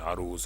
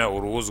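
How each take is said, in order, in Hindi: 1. शब्द की शुरुआत 'a' स्वर से होती है। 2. शब्द की शुरुआत 'u' स्वर से होती है। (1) "इसका तलफ़ुज़ इल्म अरूज है" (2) "इसका तलफ़ुज़ इल्म उरूज गलत है"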